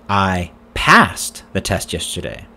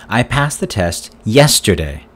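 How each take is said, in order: First: The word 'passed' carries the main stress. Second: The word 'yesterday' carries the main stress. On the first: It says the test was passed, not failed. "Did you fail the test yesterday?" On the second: It says when the test was passed. "When did you pass the test?"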